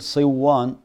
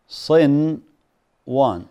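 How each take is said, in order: First: The n sound merges fully into the w. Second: The n sound is clearly pronounced before w. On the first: The meaning of the word is changed. The speaker calls it wrong. "ما تقول صوان" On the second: The word keeps its proper meaning. The speaker calls it right. "المفترض هنا أن تظهر النون"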